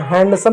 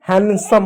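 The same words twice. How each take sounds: First: हैंडसम with a clear middle d; D pronounced. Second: हैंडसम as han-sum, no d; silent D. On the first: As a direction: sound the D in हैंडसम. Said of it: "नहीं होता है". (डी बोलकर "हैंडसम") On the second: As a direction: drop the D from हैंडसम. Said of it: "हैंडसम होता है". (डी silent रखकर "हैंडसम") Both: Shown as a demonstration.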